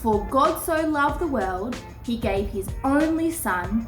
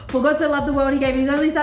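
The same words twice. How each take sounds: First: It is spoken at a slow pace. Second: It is spoken at a fast pace. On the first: "let me say it slowly first" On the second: "let's see how fast we can say it"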